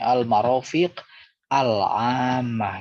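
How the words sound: A stop after the first word; al- is voiced. "karena diwakafkan, maka al-nya itu harus dibunyikan"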